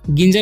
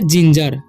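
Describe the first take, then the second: First: The word starts with a hard g sound. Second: The word starts with a j sound. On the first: The speaker calls it wrong. "गिंजर नहीं पढ़ना है" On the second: The speaker calls it right. "जी का उच्चारण यहाँ पर हो जाएगा ज"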